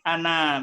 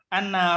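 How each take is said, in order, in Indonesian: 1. Vokal akhirnya panjang. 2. Vokal akhirnya pendek. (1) "jadi bukan ana" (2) "Ini ana rabbuka ... Jadi nanya jadi pendek"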